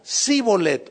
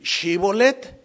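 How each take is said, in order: First: The word begins with a plain "s" sound. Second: The word begins with an "sh" sound. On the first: The speaker belongs to the other tribe. The speaker calls it wrong. "no podían pronunciarlo" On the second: The speaker belongs to the questioning tribe. The speaker calls it right. "di Shibolet"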